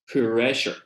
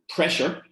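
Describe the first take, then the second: First: A small vowel is inserted inside the opening cluster. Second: The opening cluster is said without an added vowel.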